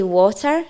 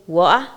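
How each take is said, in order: First: Said in the usual way. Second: "water" with the t swallowed, a glottal stop; Scots pronunciation. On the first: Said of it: "you wouldn't say water". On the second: Shown as a demonstration. Learner showing how Scots say it, "water" without its t. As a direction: drop the t in "water": wa'er. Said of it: "you would say water".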